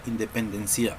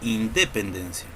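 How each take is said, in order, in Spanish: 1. El acento está en la última sílaba. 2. El acento está en la segunda sílaba. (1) "Tampoco decimos" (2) "Tampoco decimos independencia"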